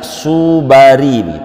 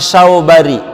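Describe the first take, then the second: First: The first syllable has a plain 'u' vowel. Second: The first syllable has an 'au' diphthong. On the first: The speaker calls it wrong. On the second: The speaker calls it right.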